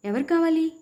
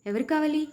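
First: ఎవరు కావాలి shouted much higher; a crazed father's cry at full pitch; loud shout. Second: A half-raised crazed cry. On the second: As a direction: pitch up on ఎవరు కావాలి, holding the volume back. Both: A narrator's reading. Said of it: "గట్టిగా అరిచాడు".

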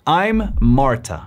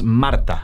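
First: Slow "I'm Marta", subtle R made in the throat; English R in Marta. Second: Marta with a Spanish R made in the mouth. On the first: Coach shows learners the English R, subtle throaty "Marta". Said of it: "las R's en inglés son mucho más sutiles y se producen desde la garganta". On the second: Coach contrasts Spanish Marta with English, tongue-tip R. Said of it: "En español diríamos Marta". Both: Shown as a demonstration.

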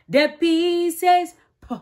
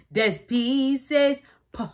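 First: Louder, higher "The P says P"; a bit louder, higher; emphatic. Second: Said in the usual way. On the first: Shown as a demonstration.

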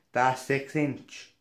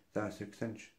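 First: "That's six inch" said slow and loud; emphatic repeat. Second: Soft, barely bothered mumble; imitated rude grunt. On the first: Retold or imitated. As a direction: mimic irritation, hitting each word of "That's six inch". Server repeats it for customer. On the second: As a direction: mimic a server grunting the answer. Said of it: "she was, like, grunting at me".

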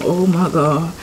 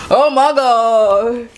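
First: Said in the usual way. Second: Slow, loud drawn-out amazement; exaggerated cartoon intonation. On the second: Real, not acted. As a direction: stretch out the awe. Admiring fried chicken.

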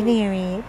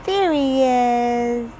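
First: Said in the usual way. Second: Slow, louder drawn-out greeting; delighted slow sing-song; excited pet greeting. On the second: Real, not acted. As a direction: stretch it out to the dog. Greeting dog in baby talk.

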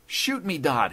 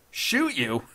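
First: High, urgent plea; begging. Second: High, loud mocking echo; laughing scorn. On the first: Judge begging the intruder to fire, high desperate plea. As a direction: beg him desperately, falling on the name. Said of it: "he begged". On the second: Intruder laughing off the judge's plea, derisive. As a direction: throw the plea back derisively. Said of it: "laughed Dodd". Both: A narrator's reading.

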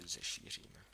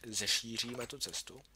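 First: "Zešíříme" breathed low and unvoiced, tasting the word; puzzled whisper over an odd word; musing whisper. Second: Said in the usual way. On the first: Shown as a demonstration. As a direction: whisper "Zešíříme" doubtfully to yourself. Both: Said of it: "Taky dost divný slovo".

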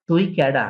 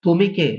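First: "তুই কেডা" said in Barisal dialect; casual Barisal question. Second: Said in the usual way. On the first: Shown as a demonstration. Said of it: "dialect version". (বরিশালের ভাষায় প্রশ্ন) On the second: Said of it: "standard form before dialect".

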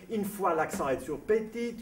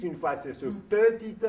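First: "petite" stressed on one syllable, high and drawn out; shifting accent. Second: "petite" with the stress moved to its other syllable, high and loud; shifted accent. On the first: Puzzled Strauss complains about French accents, exaggerated stress on "petite". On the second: Puzzled Strauss shows the other variant, exaggerated stress on "petite". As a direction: move the accent within "petite" and lean on it. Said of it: "il repérait qu'en France". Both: Retold or imitated.

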